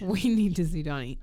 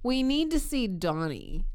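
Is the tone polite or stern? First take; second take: stern; polite. First: It sounds stern and unfriendly. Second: It sounds polite and happy.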